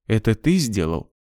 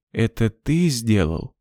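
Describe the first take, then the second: First: Said in the usual way. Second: Lifeless voice. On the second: A narrator's reading. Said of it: "повторила она потухшим голосом".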